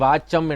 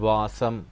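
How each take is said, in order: First: The middle consonant is a hard doubled ch. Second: The middle consonant is soft and hissing. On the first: The speaker calls it wrong. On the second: The speaker calls it right.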